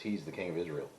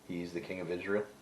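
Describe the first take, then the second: First: It is said as a falling statement. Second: It is read as a rising question.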